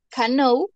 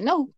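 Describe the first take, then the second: First: The word begins with an audible k sound. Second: The word begins with an n sound, k silent. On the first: "Se escribe cano" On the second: "pero se pronuncia no"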